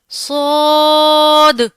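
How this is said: It is said with an Arabic accent. The speaker calls it right. "Arabic accent में ... प्रॉपर तरीके से अदायगी"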